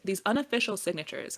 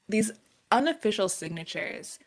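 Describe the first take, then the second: First: It is said fast. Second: It is said slowly.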